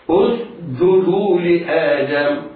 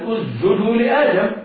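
First: A hissing s, then a firm, hard j. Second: The s disappears into the j. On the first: The speaker calls it right. "ينطق بالسين ساكنة غير مقلقلة ثم يصحبها صفيرها ثم ينطق بالجيم شديدة" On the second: The speaker calls it wrong. "فينطقونها جيما اسجدوا لآدم ويخفون السين"

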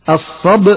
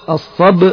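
No difference in how they are said.

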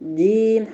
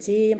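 First: The j is a firm, fully closed sound. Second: The j has a hissing sh-like quality. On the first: The speaker calls it right. "هو جيم جيم" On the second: The speaker calls it wrong. "يجيني فيه صوت الشين ... خطأ"

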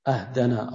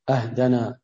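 The two takes are said the same way.

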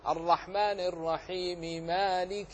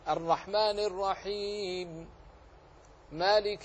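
First: Linked with no pause, both m sounds clearly voiced. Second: A pause after the first phrase, final m unvoweled. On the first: "بالوصل نطقت بميمين، الأولى منهما مكسورة والثانية مفتوحة" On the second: "وإن وقفت فسكنت لأجل العارض للوقف"

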